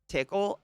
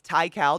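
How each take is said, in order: First: The first syllable sounds like 'tick'. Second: The first syllable sounds like 'tie'. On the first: The speaker calls it wrong. "I'm gonna go with Tickle because it's funny" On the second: The speaker calls it right. "it's Ty Cal. ... It's not Tickle"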